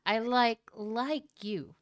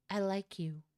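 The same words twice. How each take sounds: First: First "like" said louder and held; stress on like. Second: Said in the usual way. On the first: Shown as a demonstration. Reader restates the confession, pushing "like" hard. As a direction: hit the word "like" firmly. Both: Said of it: "I just wanna clarify and say this right".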